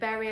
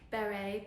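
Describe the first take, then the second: First: It is said like the English word berry. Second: It is said like beh-ray, as in beret. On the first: The speaker calls it wrong. "my very northern English accent pronouncing berry" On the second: The speaker calls it right. "it's meant to be more like beret"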